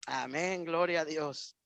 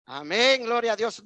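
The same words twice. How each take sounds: First: Said in the usual way. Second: Amen called out loud to rouse the church. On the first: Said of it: "Ahí nadie dijo amén". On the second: Shown as a demonstration. Preacher calling the congregation to answer amen, loud. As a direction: shout it out so they answer back. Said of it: "No oí amén, hermanos".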